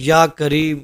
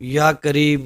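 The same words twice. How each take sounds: The two takes are said the same way.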